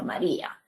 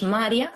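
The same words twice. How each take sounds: First: "María" as ma-RÍ-a, stress on RÍ; broken diphthong. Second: "María" said as MA-rya, stress on MA; wrong diphthong version. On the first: Teacher giving the correct name, "María" as ma-RÍ-a. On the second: Teacher showing what it is not, "María" as MA-rya. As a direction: run the i and a of "María" together, stressing the first syllable. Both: Shown as a demonstration. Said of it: "para romper un diptongo".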